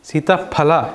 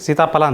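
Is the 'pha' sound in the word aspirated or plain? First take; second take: aspirated; plain. First: The middle consonant is said with a puff of air. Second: The middle consonant is said without a breath of air. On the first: The speaker calls it right. "ಫ ಫ ಹವಾ ಹೋಗ್ಬೇಕು ಸ್ವಲ್ಪ ಗಾಳಿ ಬಾಯಿಂದ" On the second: The speaker calls it wrong. "ಬರೀ ಸೀತಾಫಲ ಅಂತೀರಾ?"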